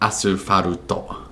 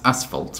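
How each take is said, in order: First: It is said with Japanese katakana-style syllables. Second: It is said with plain English sounds.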